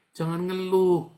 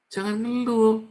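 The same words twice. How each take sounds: First: High, loud rebuke; firm preaching warning; stern loud. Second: High, loud scolding cry; forceful pulpit rebuke; sharper loud rebuke. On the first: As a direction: scold the complainers. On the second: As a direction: punch it harder the second time. Preacher rebuking complaining. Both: Real, not acted.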